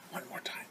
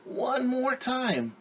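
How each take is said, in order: First: Soft whispered echo. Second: Very high, slow, drawn-out plea; pleading child. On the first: The reader softly echoes the children's plea, whispered. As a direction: breathe it as a secret echo. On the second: A child begs for one more turn, high drawn-out plea. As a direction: stretch it out like a begging kid. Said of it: "And they're saying". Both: Acted.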